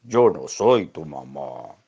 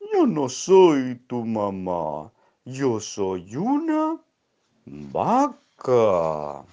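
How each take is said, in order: First: Tiefer, lauter, langsamer Hund; Hundestimme. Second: Hohe, sehr langsame, laute Kuh; Kuhstimme. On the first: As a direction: sag es tief und gedehnt als Hund. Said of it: "El perro dijo". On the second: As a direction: zieh jedes Wort lang wie eine gemächliche Kuh. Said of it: "Y le dijo". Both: Acted.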